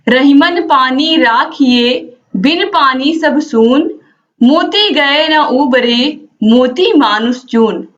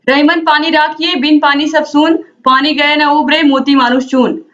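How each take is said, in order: First: The couplet is recited slowly and calmly. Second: The couplet is recited quickly.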